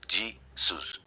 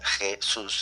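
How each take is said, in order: First: The name is said with English pronunciation. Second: The name is said with Spanish pronunciation. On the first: The speaker calls it right. "se pronuncia Jesus" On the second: The speaker calls it wrong. "en inglés no se pronuncia Jesús"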